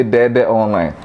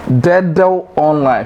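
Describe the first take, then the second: First: "Dede online" with "deh-deh"; mispronounced Dedo online. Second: "Dedo online" slowly, ending in a rounded vowel; correct Dedo online. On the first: Teacher quoting people, "Dede online" as "deh-deh online". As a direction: repeat the same vowel in "Dede online": deh-deh. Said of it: "People say Dede online". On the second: Teacher introducing the right form, "Dedo online" slowly as "deh-dow". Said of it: "So it is Dedo online". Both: Shown as a demonstration.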